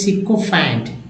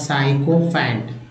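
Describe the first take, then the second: First: The first syllable sounds like 'sick'. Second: The first syllable sounds like 'sigh'. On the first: The speaker calls it right. "लेकिन यहाँ साइको नहीं, सिकोफैंट" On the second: The speaker calls it wrong. "मुझे तो साई समझ में आ रहा था"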